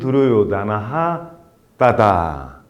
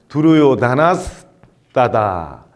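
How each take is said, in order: First: The name ends with an h sound. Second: The name ends with an s sound. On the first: "끊어 읽을 때는 두루요다나 하 미사르가 따다 이렇게 읽었죠" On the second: "이어 읽으면은 미사르가가 스로 바뀌어서 두루요다나스 따다 이렇게 됩니다"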